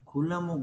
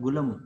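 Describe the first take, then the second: First: The word begins with a voiceless k sound. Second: The word begins with a voiced g sound. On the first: "కకారం బదులుగా" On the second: "కకారం బదులుగా గకారం వచ్చి గులము"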